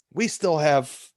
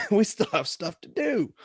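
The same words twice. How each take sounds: First: Said in the usual way. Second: Laughing through it, voice jumping higher. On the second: Real, not acted. Referee laughing that the match is not over yet. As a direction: chuckle as you tell the crowd it isn't over.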